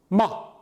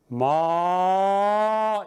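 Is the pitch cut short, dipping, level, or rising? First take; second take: cut short; rising. First: The syllable is cut off short and abruptly. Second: The pitch starts low and rises upward. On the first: "입을 다문다는 형태" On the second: "처음에는 낮게 하다가 위로 높아지는 모습입니다"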